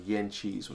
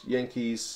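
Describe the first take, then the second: First: The middle consonant is a ch sound. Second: The middle consonant is a plain k sound.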